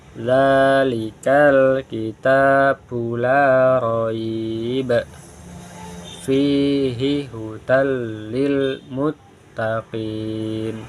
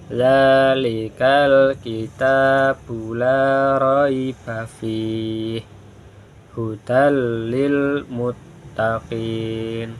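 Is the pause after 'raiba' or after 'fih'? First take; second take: after raiba; after fih. First: The stop comes after raiba. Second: The stop comes after fih. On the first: "Atau maunya berhenti di sini" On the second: "Kalau berhenti di sini"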